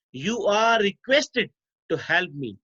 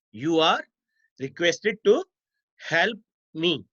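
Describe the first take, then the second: First: Said in the usual way. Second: "You are", pause, "requested to", pause, "help me"; dictation in chunks. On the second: Shown as a demonstration. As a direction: pause after "are" and after "to", as if students are writing. Repeats example in chunks for students.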